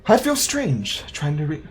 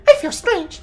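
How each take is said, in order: First: Said in the usual way. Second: Very high, squeaky creature voice; Pikachu. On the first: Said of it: "gotta give it a Pikachu voice". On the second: Pretend. Player tries out a voice for reading a game log, hammed-up high squeak. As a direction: squeal it loud and high like a cartoon pet. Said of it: "give it a Pikachu voice".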